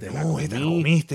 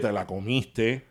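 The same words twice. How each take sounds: First: It is said in an admiring, impressed tone. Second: It is said in a scolding, disapproving tone. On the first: You did a great thing. "Or like when you do a great thing, it's like" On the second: You messed up. "Depending on the tone. Oye, te la comiste when you mess up"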